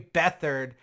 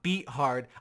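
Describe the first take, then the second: First: The middle letters are said as one th sound. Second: The middle is said as separate t and h. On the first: The speaker calls it right. "his name is C J Beathard" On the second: The speaker calls it wrong. "not Beathard"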